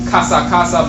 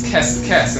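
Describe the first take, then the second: First: Each part has two 'a' vowels. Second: Each part has one short 'e' vowel. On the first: The speaker calls it right. "with the proper vocalization" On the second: The speaker calls it wrong. "they'll stick an E in there to, to facilitate a pronunciation"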